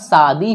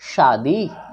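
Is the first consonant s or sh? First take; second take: s; sh. First: The word begins with an s sound. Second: The word begins with an sh sound. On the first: The speaker calls it wrong. "आप दंत स का उच्चारण कर रहे हैं ... बिल्कुल गलत है" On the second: The speaker calls it right. "शादी में तालब्य श होता है"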